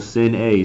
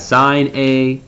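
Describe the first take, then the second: First: The first word sounds like 'sin' with short i. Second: The first word sounds like 'sign' with long i. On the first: The speaker calls it wrong. "You don't really say sin" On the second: The speaker calls it right. "Just just say sine"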